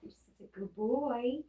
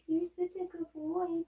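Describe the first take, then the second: First: Higher, sing-song pet praise; light pet-talk praise; praising the dog. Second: Much higher, squeaky pet praise. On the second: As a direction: push the voice way up to praise the dog. Praising the dog again. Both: Real, not acted.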